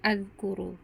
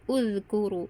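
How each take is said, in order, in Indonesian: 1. Kata ini diawali dengan vokal a. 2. Kata ini diawali dengan vokal u. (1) "atau azkuru" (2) "tapi uzkuru"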